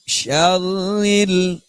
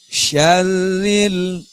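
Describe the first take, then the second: The two takes are said the same way.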